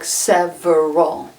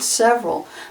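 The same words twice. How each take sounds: First: The word is said with three syllables. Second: The word is said with two syllables. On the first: "it looks like several. It looks like three syllables" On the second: "We pronounce it several"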